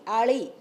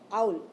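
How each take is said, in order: First: The name sounds like Ali, with two syllables. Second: The name sounds like the English word owl. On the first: This is how the new spelling is read. The speaker calls it right. "now it will be written as A A L I" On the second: This is how the old English spelling is read. The speaker calls it wrong. "when you write in English, they write A U L"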